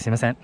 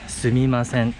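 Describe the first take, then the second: First: The middle 'm' sound is dropped. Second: The middle 'm' sound is clearly pronounced. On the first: "when people speak fast, some people just say すいません" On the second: "in Japanese, excuse me is すみません"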